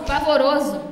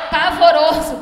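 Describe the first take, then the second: First: Said in the usual way. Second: Loud laughing cry of "Pavoroso"; laughing horror. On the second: Real, not acted. Reacting to her ghastly makeup, "Pavoroso" laughed out loud.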